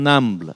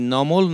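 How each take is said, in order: First: The name is said with Arabic-style pronunciation. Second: The name is said with a Bengali-style vowel. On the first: The speaker calls it right. "উচ্চারণটা আরবি ধারায় হলে আরো ভালো হতো" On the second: The speaker calls it wrong. "ওই নামটি নমল না বলে"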